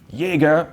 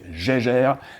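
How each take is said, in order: First: It is said with a German pronunciation. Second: It is said with a French pronunciation. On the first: The speaker calls it wrong. "the German way" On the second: The speaker calls it right. "you pronounce it the French way"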